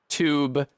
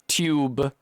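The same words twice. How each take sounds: First: It begins with a t followed by y. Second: It begins with a t followed by y.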